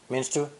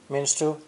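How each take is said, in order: No difference in how they are said.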